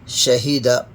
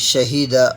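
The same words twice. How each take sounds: No difference in how they are said.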